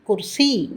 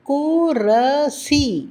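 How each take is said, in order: First: The r runs straight into s, no vowel. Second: A full vowel is sounded between r and s. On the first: The speaker calls it right. "ரா பாதியாக உச்சரிக்கப்படுகின்றது" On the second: The speaker calls it wrong. "குரசி என்று சொல்வதில்லை"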